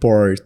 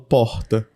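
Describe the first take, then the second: First: It is said in the local Naviraí accent. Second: It is said in the speaker's Pará accent.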